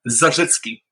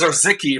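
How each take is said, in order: First: The name is said with Polish sounds. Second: The name is said with English sounds. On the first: "I gotta turn my brain over to the Polish when I do it" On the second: "Otherwise, it comes out as"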